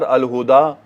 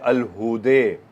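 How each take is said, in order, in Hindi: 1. अंतिम स्वर सीधा खुला 'a' है। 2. अंतिम स्वर 'e' की ओर झुका हुआ है।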